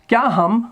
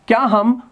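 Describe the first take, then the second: The two takes are said the same way.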